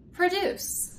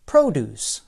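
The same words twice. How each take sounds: First: "produce" said as pro-DUCE, stress on the second syllable; "produce" as the verb, weak first syllable, strong second. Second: "produce" said as PRO-duce, stress on the first syllable; "produce" as the noun, first syllable strong, long "oh". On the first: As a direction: hit DUCE in "produce" higher, first syllable reduced to "pruh". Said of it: "The stress is on the second syllable". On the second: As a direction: lean on PRO in "produce", lower pitch, rest light. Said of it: "The stress is on the first syllable". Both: Shown as a demonstration.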